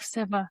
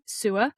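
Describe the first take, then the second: First: The word ends in a clear va sound. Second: The word sounds like English sewer. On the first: The speaker calls it right. "oh, Seva, okay" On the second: The speaker calls it wrong. "teachers go sewer"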